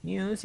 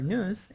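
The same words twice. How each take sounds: First: "news" as British "nyooz"; British-style "news", n-y-oo-z. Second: "news" as American "nooz"; American-style "news", plain oo after the n. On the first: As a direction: say "news" with a y-glide after the n, "nyooz". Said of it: "news in British English". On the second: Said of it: "in American English". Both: Shown as a demonstration.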